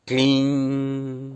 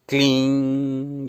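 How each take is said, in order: Both takes have the same delivery.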